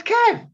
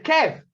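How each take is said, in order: First: Very high, loud yell of a name; exasperated shout. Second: Raised, high call of a name. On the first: Driver yelling at his ignored-him mate, exasperated shout. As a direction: shout it to break through to him. Second call, still ignored. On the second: Driver calling his unresponsive mate, first raised call. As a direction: call to get his attention, loud and higher. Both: Retold or imitated.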